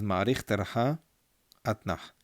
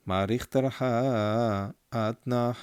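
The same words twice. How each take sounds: First: Said in the usual way. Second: Slow sung trope names; trope chant. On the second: Shown as a demonstration. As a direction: chant with long held endings. Chants the trope just named.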